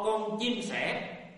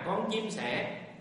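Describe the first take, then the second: First: It is shouted loudly, word by word. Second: It is said at a calm, normal loudness. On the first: The speaker is irritated and losing patience. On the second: The speaker is answering patiently.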